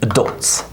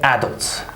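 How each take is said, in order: First: The first vowel is a quick, reduced schwa. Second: The first vowel is a full, unreduced vowel. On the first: The speaker calls it right. "we say adults" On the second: The speaker calls it wrong. "We don't say adults"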